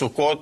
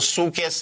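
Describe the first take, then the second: First: The word ends with an o and a t sound. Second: The word ends with an e and an s sound. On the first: This is the Hebrew form. "in Hebrew end up with Taf" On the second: This is the Yiddish form. "Sukkes in Yiddish"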